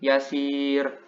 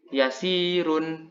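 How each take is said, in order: First: The word ends abruptly without the -un ending. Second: The word ends with the full -un ending. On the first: The reading stops at this word. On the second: The reading continues into the next word.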